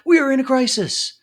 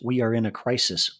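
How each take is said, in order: First: It is said in an alarmed, panicky tone. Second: It is said in a calm, matter-of-fact tone. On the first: The panic leaves nobody able to align. The speaker calls it wrong. "just not with the tone and inflection of" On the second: The situation is acknowledged in a way others can follow. The speaker calls it right. "are allowed to be said"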